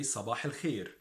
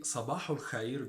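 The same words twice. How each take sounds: First: صباح الخير as "sabah il-kheer"; Egyptian pronunciation. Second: صباح الخير as "sabahu l-khayr"; Standard Arabic pronunciation. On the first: Teacher gives good morning in dialect, Egyptian pronunciation. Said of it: "we say". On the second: Teacher gives good morning formally, Standard Arabic pronunciation. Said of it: "in standard Arabic". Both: Shown as a demonstration.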